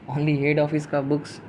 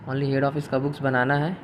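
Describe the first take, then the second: First: "Only head office का books" said slowly, with "head" leaned on; slow stress on head. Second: Said in the usual way. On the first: Shown as a demonstration. Teacher drilling students on the key phrase, slow and stressed. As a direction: spell out "Only head office" word by word, "head" strongest. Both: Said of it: "सिर्फ हेड office का books बनाइए".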